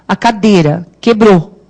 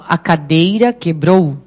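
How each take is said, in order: First: The i in cadeira is barely pronounced. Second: The i in cadeira is clearly pronounced. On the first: It is the everyday natural way of speaking. The speaker calls it right. "o I, aí no caso, nem tem som" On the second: It sounds overly careful and affected. The speaker calls it wrong. "chega a ser arrogante"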